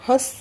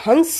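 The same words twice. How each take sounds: First: हंस with a nasal vowel, no separate n; nasalised vowel. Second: हंस with a distinct n before the s; full nasal consonant. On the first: Teacher giving examples of nasal sounds, nasalised हंस. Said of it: "वही अनुनासिक ध्वनियाँ कहलाती हैं". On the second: Teacher showing a non-example, हंस with full n. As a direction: sound a clear n in हंस. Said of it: "तो वो अनुनासिक नहीं है". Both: Shown as a demonstration.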